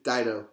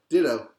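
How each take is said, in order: First: Dido said as DIE-doh, long i; correct pronunciation. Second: Ditto said as DIH-doh, short i; wrong pronunciation. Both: Shown as a demonstration. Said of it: "It's not Ditto, it's Dido".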